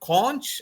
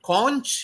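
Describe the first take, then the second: First: It is said with a British English pronunciation. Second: The same.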